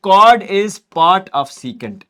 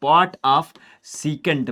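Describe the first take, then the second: First: Each word drawn out; very slow dictation. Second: Drawn out; slow dictation. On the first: Teacher dictating that a chord is part of a secant, slowly. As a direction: lay the words down slowly for notes. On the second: Teacher repeating the rule to students, slowly. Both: Shown as a demonstration.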